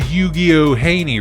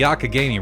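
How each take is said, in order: First: The name begins with a 'you-gee-oh' sound. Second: The name begins with a 'yak' sound. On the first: The speaker calls it wrong. "as I would pronounce it forever because I'm stupid" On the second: The speaker calls it right. "it's apparently the Yakagani River"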